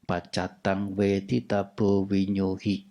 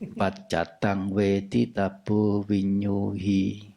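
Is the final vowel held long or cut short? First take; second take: short; long. First: The final vowel is cut short. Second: The final vowel is drawn out long. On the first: The speaker calls it wrong. "Nggak usah dibaca pendek. ... Kan jadi lucu" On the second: The speaker calls it right. "Naturalnya memang panjang"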